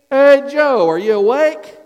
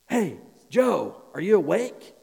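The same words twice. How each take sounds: First: It is said louder and more urgently. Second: It is said quietly and calmly.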